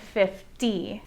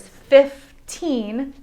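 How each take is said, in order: First: Slow, soft "fifty", FIF-tee; deliberate "fifty" with no final n; careful contrast. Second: Put-on "fifteen" as fif-TEEN; deliberate "fifteen", second syllable drawn out; careful contrast. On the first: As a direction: say "fifty" softly in two careful beats. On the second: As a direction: break "fifteen" in two with a long TEEN. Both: Shown as a demonstration. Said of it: "confusion between the numbers fifteen".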